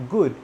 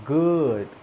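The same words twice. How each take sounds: First: GOOD with tense "oo" as in food; GOOD with mouth closed. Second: GOOD drawn out with relaxed short oo; GOOD with open mouth. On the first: Teacher showing the mistake, GOOD with tight "oo". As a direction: purse the lips on GOOD. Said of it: "I don't close my mouth". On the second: Teacher correcting the mistake, GOOD with relaxed vowel. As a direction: loosen the lips on GOOD, as in "could". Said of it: "Open your mouth". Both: Shown as a demonstration.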